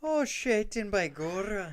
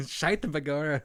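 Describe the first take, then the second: First: Hammed-up Irish cop accent, high and loud; Irish beat cop. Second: Laughing Irish brogue, high and loud; Irish beat cop. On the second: Retold or imitated. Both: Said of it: "He's an Irish beat cop".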